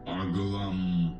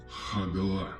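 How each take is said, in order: First: An m sound is added after the final vowel. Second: An breathy h sound comes before the first vowel. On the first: "вы услышите сонанту «м»" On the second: "перед начальной гласной появляется придыхательный звук «г»"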